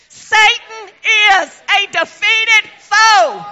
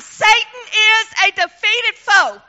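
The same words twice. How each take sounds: First: It is said with strong, deep conviction. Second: It is said plainly, without strong conviction.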